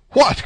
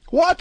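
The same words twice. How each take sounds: First: High, startled cry; astonished. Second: Very high, incredulous yelp; greater astonishment. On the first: D'Artagnan learning of the first witness, astonished. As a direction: cry out in surprise, pitch jumping up. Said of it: "in an accent of greater astonishment than before". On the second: D'Artagnan learning of the second witness, utterly astonished. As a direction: shoot the pitch right up in amazement. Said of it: "an accent of greater astonishment". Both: A narrator's reading.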